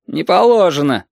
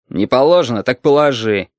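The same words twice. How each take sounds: First: Higher-pitched official refusal; barracks refusal. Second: Mildly exasperated comeback; losing patience. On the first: Sentry bars the road to the highway, barracks tone. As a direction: refuse like a sentry quoting rules. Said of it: "казарменный тон". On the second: Traveller retorts to the sentry, losing patience. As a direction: throw the words back, restraint slipping. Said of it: "не сдержался Валентин". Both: A narrator's reading.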